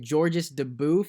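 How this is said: The name is pronounced the English way. "in English, you would say"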